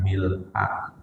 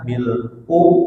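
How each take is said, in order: First: The word ends with an 'a' vowel. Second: The word ends with an 'u' vowel. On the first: "boleh dibaca mil'a" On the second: "Boleh dibaca mil'u"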